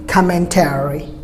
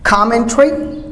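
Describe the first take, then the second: First: Commentary as COM-men-TAIR-ee; American commentary, falling; American pronunciation. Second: Commentary shortened to COM-men-tree; British commentary, rising; British pronunciation. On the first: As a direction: prolong the "tary" in commentary. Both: Shown as a demonstration. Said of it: "Americans prolong the word".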